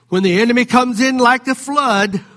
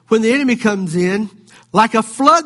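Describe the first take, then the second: First: It runs on without a pause after "comes in." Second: There is a pause after "comes in."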